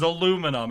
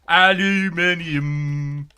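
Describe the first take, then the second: First: It is said in a plain American accent. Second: It is said in a put-on British accent. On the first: The speaker calls it right. "Everyone in the world agreed it was aluminum" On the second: The speaker calls it wrong. "the British were like... Is that even Cockney?"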